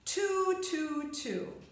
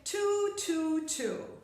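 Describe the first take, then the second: The two takes are said the same way.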